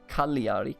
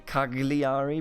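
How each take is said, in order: First: The middle sounds like ly, no hard g. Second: The middle has a hard g sound. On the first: The speaker calls it right. "but apparently it's Cagliari" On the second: The speaker calls it wrong. "I naturally tend to say Cagliari"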